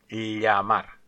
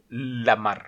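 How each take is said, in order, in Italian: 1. La parola inizia con un suono palatale. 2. La parola inizia con un suono di L semplice. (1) "en español se pronuncia llamar" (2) "un italiano direbbe la mar"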